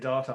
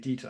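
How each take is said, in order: First: The word is said with an Australian pronunciation. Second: The word is said with a non-Australian pronunciation. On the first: "Australians say data" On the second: "I say data, apparently"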